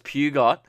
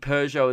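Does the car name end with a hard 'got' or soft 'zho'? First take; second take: hard got; soft zho. First: The name ends with a hard 'got' sound. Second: The name ends with a soft 'zho' sound. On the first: The speaker calls it wrong. "I was pronouncing Peugeot as Pugot" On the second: The speaker calls it right. "I was pronouncing Peugeot"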